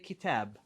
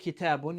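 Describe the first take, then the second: First: The word stops on the final consonant. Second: The word ends with a pronounced 'un' ending. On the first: The speaker calls it right. "you say kitab" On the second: The speaker calls it wrong. "You don't say kitabun"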